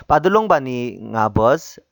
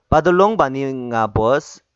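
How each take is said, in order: Both takes have the same delivery.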